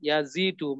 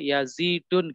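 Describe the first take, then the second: First: The word ends in a plain u vowel. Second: The word ends with an added n sound. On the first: The speaker calls it right. "maka tidak boleh ditanwin" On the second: The speaker calls it wrong. "Nggak boleh yazidun"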